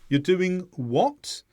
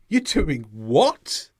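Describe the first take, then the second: First: It sounds like a puzzled request to repeat. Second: It sounds astonished and surprised. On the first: The listener did not hear clearly. "it could mean, I didn't hear clearly. Repeat" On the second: The listener is surprised by the news. "There, you're showing surprise"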